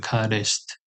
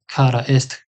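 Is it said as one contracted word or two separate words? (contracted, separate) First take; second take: contracted; separate. First: It is said as one contracted word. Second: It is said as two separate words. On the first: "can be shortened into karist" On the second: "And kara ist"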